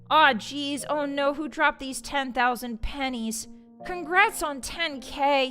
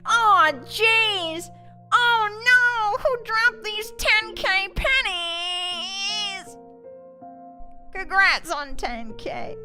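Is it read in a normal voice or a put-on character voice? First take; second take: normal; character voice. First: It is read in the speaker's normal voice. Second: It is read in a put-on character voice.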